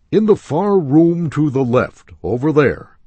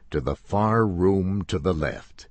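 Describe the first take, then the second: First: High, loud call across the store; salesman pointing. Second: Said in the usual way. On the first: Acted.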